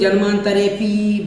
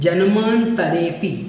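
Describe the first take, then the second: First: The final 'pi' is drawn out long. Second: It is said joined, with a short 'pi'. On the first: The speaker calls it wrong. "बड़ा पी कर देते हैं" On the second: The speaker calls it right. "आपको बोलना है जन्मांतरेपि"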